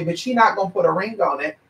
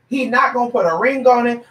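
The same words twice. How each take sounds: First: Said in the usual way. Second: Higher-pitched, insistent restatement; emphatic repeat. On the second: Real, not acted. Telling someone he will not marry her, emphatic and higher. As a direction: drive it home in a raised pitch. Repeats it to drive point home.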